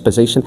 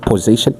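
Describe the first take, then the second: First: The first vowel is short and reduced. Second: The first vowel is a full 'po' sound. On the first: The speaker calls it right. "it's position" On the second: The speaker calls it wrong. "We don't say po, it's not position"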